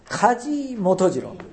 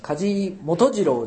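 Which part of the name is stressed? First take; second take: 梶; 元次郎. First: The surname carries the stronger stress. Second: The given name carries the stronger stress. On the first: The speaker calls it right. "名字の方が強い" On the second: The speaker calls it wrong. "梶元次郎じゃなくて"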